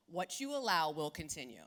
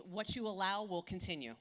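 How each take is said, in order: First: Deliberate, pointed restatement; emphatic repeat. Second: Said in the usual way. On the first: Shown as a demonstration. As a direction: drive the message home the second time. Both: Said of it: "repeated for emphasis".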